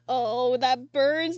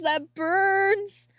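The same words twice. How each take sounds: First: Stinging pain. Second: High, loud yelp at the sting of burns; pained outcry. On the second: Crying vlogger whose nose burns from tears, yelping in pain. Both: Real, not acted. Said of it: "have you ever had the tears".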